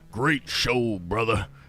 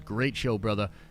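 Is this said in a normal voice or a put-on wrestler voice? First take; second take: wrestler voice; normal. First: It is said in a gruff wrestler voice. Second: It is read out in a normal voice.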